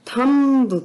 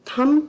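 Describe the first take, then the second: First: It ends with an audible b sound. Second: It ends with m and no b sound. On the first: The speaker calls it wrong. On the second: The speaker calls it right.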